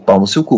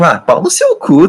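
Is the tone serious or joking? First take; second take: serious; joking. First: It is said in a serious, offended tone. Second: It is said jokingly, with laughter.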